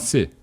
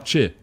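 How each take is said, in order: First: The syllable starts with an 's' sound. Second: The syllable starts with a 'ch' sound. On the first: This is the Brazilian way that broadcasters must now use. "tem que falar cê" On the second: This is the Italian way of saying the name. "não pode mais falar tchê"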